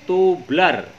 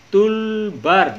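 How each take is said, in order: First: The l sound comes after the b sound. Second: The l sound comes before the b sound. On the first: The speaker calls it wrong. "bukan tublar" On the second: The speaker calls it right. "bacanya toolbar"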